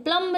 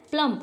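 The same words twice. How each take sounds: First: प्लम्ब with a sounded final B; B pronounced. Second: प्लम closing on M; silent B. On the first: Teacher showing learners the mistake, प्लम्ब with audible B. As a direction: release the B in प्लम्ब. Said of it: "प्लम्ब नहीं पढ़ते हैं". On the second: Teacher correcting the reading for learners, प्लम with silent B. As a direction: drop any B from प्लम. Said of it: "क्या पढ़ते हैं". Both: Shown as a demonstration.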